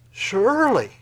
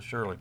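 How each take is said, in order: First: "Surely" said higher and loud with a falling push; emphatic surely. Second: Said in the usual way. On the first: Shown as a demonstration. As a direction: punch "Surely" as a strong assertion. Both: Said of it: "you gotta underline that word".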